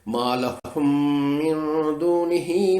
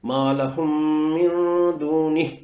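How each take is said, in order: First: The last word ends with a long final vowel. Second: The last word ends without its final vowel. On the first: The reciter continues into the next words. "अगर वक्फ नहीं करते" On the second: The reciter stops at this word. "यहाँ पर मैंने वक्फ कर लिया तो इस खड़ी जेर को जज़म में बदल दिया"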